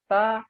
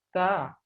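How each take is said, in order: First: The t is released with no flowing breath. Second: The t is released with audible flowing breath. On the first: The speaker calls it wrong. "tidak adanya nafas yang mengalir" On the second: The speaker calls it right. "Seharusnya ada nafas yang mengalir"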